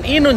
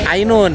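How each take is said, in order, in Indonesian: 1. Nama itu dimulai dengan bunyi 'ee' biasa. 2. Nama itu dimulai dengan diftong 'ai'.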